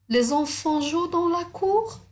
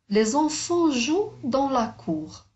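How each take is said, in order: First: It is said with question intonation. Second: It is said with statement intonation. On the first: It asks a question. "je vais redire la même phrase, mais en prenant un temps différent" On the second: It states a fact. "Un point simple. Parce que c'est une phrase déclarative"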